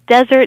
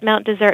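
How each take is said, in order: First: It is said the way the spelling suggests. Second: It is said like a corrupted French pronunciation. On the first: This matches the spelling and the barren mountaintops. "desert is fine because that is how it was spelled" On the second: This is how most locals say it. "locals, for the most part, call it Mount Desert because it's a corruption of the original French pronunciation"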